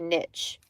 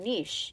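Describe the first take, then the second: First: The word has a plain, everyday-sounding pronunciation. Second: The word has a fancier, academic-sounding pronunciation. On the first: This is how it used to be said. The speaker calls it right. "The correct way of pronouncing it back in the day" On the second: This is how people say it now to sound sophisticated. The speaker calls it wrong. "it didn't sound so um like uh fancy pants academia"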